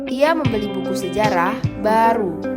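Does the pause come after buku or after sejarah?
after sejarah. A pause comes after sejarah. The book is what is new. "kalimat dua, yang baru adalah bukunya"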